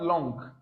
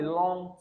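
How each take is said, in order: First: "long" with a hard g at the end; "long" released into an audible g; wrong sounded g. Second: "long" ending on ng, no hard g; "long" closed on the nasal; silent g. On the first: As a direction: mispronounce "long" as long-g. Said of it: "Not long". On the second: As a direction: keep the g of "long" unsounded. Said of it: "Never you pronounce the G sound there". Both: Shown as a demonstration.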